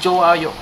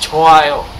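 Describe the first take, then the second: First: The word begins with a j sound. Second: The word begins with a ch sound. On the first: The speaker calls it wrong. "Hindi Joayo" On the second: The speaker calls it right. "It's Choayo. It's C H"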